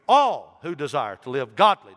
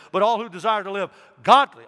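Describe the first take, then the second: First: All punched loud; stress on all. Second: Godly pushed loud and high; stress on godly. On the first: Preacher repeating the verse, All stressed. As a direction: hit the word All. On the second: Preacher insisting to church, godly loud and high. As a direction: lift and punch godly. Repeats, louder, higher. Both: Acted.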